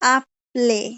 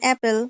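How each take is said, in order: First: The first vowel is an open Spanish 'ah' sound. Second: The first vowel is the English 'a' of 'cat'. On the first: "যদি আমরা অ্যাপেলটাকে স্প্যানিশের মতো উচ্চারণ করতে চাই তাহলে এটা কি হবে? আপলে" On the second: "যেমন ইংলিশে এ এর উচ্চারণ বিভিন্ন রকম হয়। যেমন ধরেন অ্যাপেল"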